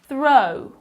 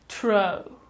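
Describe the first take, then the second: First: The word begins with a 'th' sound. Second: The word begins with a 't' sound. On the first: The speaker calls it right. "put your tongue between your teeth" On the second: The speaker calls it wrong. "if you replace th with t"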